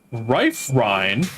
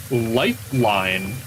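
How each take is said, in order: First: Rife Rhine with R sounds replacing both L's; Japanese accent. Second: Lifeline said slowly with clear English L sounds; careful slow Lifeline with crisp L's; plain Lifeline. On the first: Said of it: "if you said Rife Rhine". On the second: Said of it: "if you said". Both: Shown as a demonstration.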